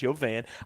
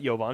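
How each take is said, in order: First: The name is split into yo plus van. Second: The name is run together as one word. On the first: The speaker calls it right. "The Yo dash and then a van" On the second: The speaker calls it wrong. "It's not Yovan"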